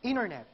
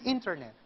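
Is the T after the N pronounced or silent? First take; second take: silent; pronounced. First: The T after the N is silent. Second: The T after the N is pronounced. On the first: The speaker calls it right. "Kasi sinasabi natin" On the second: The speaker calls it wrong.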